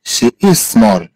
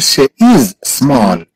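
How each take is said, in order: First: Said in the usual way. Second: Slow, separate words, stretching "is"; slow model. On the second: Shown as a demonstration. Teacher models English feminine "she is small", slowly. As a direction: hold "is" before a separate "small".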